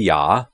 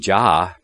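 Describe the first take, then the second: First: The syllable begins with a Y sound. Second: The syllable begins with a J sound. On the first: The speaker calls it right. "it would be Yah" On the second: The speaker calls it wrong. "the correct pronunciation would not be Jah"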